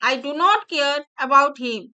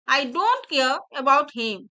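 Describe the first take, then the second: First: Do not is said as two separate words. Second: Do not is joined into the single word don't.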